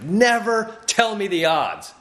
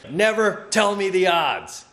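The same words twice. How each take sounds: First: It is said boldly, with lots of swagger. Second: It is said fairly calmly, without much swagger. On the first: "But that's how I heard it" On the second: "He didn't say it with as much bravado as I would have liked him to"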